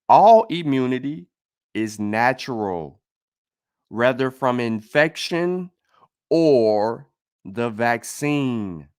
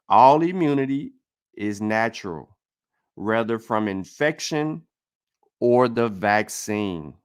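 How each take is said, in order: First: It is said very slowly. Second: It is said at a normal pace.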